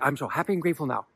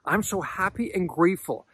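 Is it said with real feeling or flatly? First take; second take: flatly; real feeling. First: It is said flatly, without feeling. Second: It is said with warm, heartfelt feeling.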